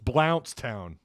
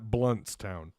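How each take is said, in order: First: The first syllable rhymes with 'count'. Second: The first syllable rhymes with 'hunt'. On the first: The speaker calls it right. "It's Blountstown" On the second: The speaker calls it wrong. "Definitely not Bluntstown"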